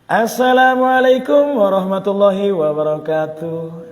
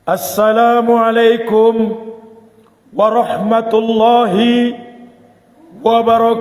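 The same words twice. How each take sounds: First: It is said with lively enthusiasm. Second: It is said loudly with solemn dignity.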